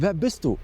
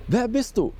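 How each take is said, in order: First: Said in the usual way. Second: Wer bist du asked again much higher; second Wer bist du pitched up and pressing; sharper repeat. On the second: Acted. Asking the stranger twice.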